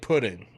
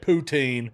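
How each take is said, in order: First: The word sounds like pudding. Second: The word is said as poo-teen. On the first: This is how a Canadian friend says it. "he says it like pudding" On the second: This is how the hosts say it. "the way we say it"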